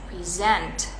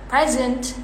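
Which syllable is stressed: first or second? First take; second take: second; first. First: The stress is on the second syllable. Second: The stress is on the first syllable. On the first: It is the verb meaning to show something. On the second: It is the noun.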